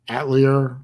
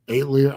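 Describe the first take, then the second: First: "Atelier" said AT-lee-er, short first A; tentative pronunciation. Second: "Atelier" said AYT-lee-er, long first A; tentative pronunciation. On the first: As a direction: try "Atelier" with an A as in cat. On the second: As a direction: try "Atelier" starting like "eight". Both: Shown as a demonstration. Trying out pronunciations of channel name.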